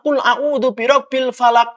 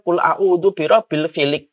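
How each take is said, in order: First: The last word is said with 'a' vowels. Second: The last word is said with 'i' vowels. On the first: The follower corrects the imam aloud. The speaker calls it right. "mengingatkannya langsung dengan suara" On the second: The imam made a mistake in recitation. The speaker calls it wrong. "Kita kalau imam salah"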